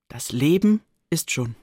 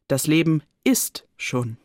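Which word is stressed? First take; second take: Leben; ist. First: The stress falls on the word Leben. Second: The stress falls on the word ist. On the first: Life is all around, everywhere one looks. "Wo ich auch hinsehe, da ist Leben" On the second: Life simply exists. "Anders gelesen klingt der Satz so"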